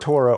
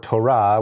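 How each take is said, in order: First: The word is said with an English pronunciation. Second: The word is said with a Hebrew pronunciation.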